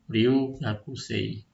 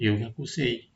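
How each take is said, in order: First: The first vowel is long. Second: The first vowel is short. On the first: The speaker calls it right. "kita bacanya agak panjang" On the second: The speaker calls it wrong. "bukan Ryugakusei, itu salah"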